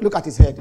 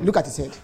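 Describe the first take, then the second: First: Mocking insult. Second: Said in the usual way. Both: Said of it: "They said".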